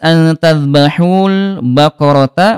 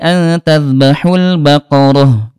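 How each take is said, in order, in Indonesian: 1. Kata terakhir berakhir dengan t dan vokal. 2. Kata terakhir berakhir dengan h lembut. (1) "Ini tertulis" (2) "Mengganti huruf ta bulat dengan huruf ha"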